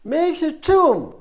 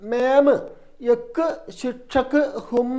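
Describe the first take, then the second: First: The words run together smoothly, with soft consonants. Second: The words are separated, with hard, pushed consonants. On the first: The speaker calls it right. "എന്ത് പറയണം?" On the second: The speaker calls it wrong. "അങ്ങനെയൊന്നും പറയരുത്"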